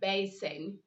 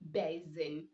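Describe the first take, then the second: First: The middle consonant is an s sound. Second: The middle consonant is a z sound. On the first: The speaker calls it right. "You have basin" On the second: The speaker calls it wrong. "but you don't say basin"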